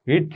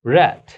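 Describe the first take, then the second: First: রিড said like "reed", pitched up; present-tense pronunciation. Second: রেড said loud, like the colour "red"; past-tense pronunciation. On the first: Teacher starts from the present form, রিড said "reed". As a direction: ee sound in রিড. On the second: Teacher shows the past-form sound, রেড said "red". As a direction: punch out রেড with a short e. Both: Shown as a demonstration. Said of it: "উচ্চারণ রেড".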